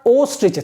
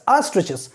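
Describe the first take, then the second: First: The first vowel sounds like 'oh'. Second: The first vowel sounds like 'ah'. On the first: The speaker calls it wrong. "It's not ostriches" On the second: The speaker calls it right. "O should be pronounced like A"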